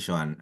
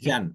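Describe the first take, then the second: First: The name is said with two vowels, Jo-an. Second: The name is said with one vowel, Jan. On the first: The speaker calls it wrong. "No sé si se pronuncia así" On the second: The speaker calls it right. "Es Jan"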